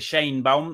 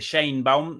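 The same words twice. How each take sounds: First: The name is said the everyday Mexican way. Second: The name is said the everyday Mexican way.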